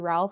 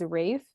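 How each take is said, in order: First: The name is said with an L sound. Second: The name is said without an L sound. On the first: "I always said Ralph" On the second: "a type of British way to say Ralph is Rafe"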